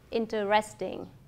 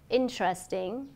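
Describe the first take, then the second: First: The middle vowel is pronounced, giving four syllables. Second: A middle vowel is dropped, giving three syllables. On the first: "thay cho" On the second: "các bạn cần phải nuốt âm"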